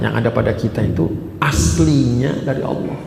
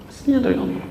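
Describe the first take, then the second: First: Said in the usual way. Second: Aslinya dari Allah lifted high and softened; soft high echo. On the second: Real, not acted. Preacher to congregation, repeating the key phrase as a soft high echo.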